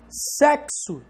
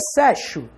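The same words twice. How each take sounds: First: The x sounds like ks. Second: The x sounds like sh. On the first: The speaker calls it right. "esse X tem som de K S" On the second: The speaker calls it wrong. "Essa letra X aqui tem som de X?"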